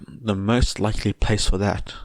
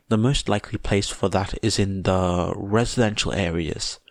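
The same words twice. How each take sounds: First: Trailing off. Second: Said in the usual way. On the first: A narrator's reading. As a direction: voice fading out unfinished. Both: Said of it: "he trailed off".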